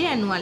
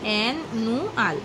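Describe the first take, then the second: First: The word is said smoothly as one unit. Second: The word is split with breaks between syllables.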